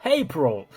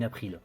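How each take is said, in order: First: "April" in a put-on English accent. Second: Said in the usual way. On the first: Shown as a demonstration. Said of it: "j'ai fait cet accent". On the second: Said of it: "je dis, je dis".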